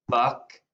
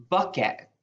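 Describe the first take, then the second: First: "Bucket" broken as buck, pause, et; split into syllables. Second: Said in the usual way. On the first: Shown as a demonstration. Teacher divides the next word for first graders, "Bucket" split into buck and et. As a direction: say "Bucket" in two separate beats. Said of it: "My first syllable is buck". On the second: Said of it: "the word bucket".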